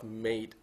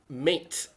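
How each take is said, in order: First: The word ends with a D sound. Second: The word ends with a T sound. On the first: The speaker calls it right. "Pronounce the D sound, not the T sound" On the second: The speaker calls it wrong. "I've heard someone said"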